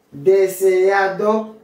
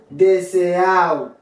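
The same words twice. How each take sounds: First: Deseado slowly with "-A-do" sounded, rising; "Deseado" ending in a distinct "-ado"; full D. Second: Deseado said "de-se-AO", slow and falling; "deseado" with its last D silent; dropped D. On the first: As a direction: say Deseado in full, second D clearly heard. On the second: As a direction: slide A into O in deseado. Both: Shown as a demonstration. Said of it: "ou qu'à prononcer ou qu'à pas".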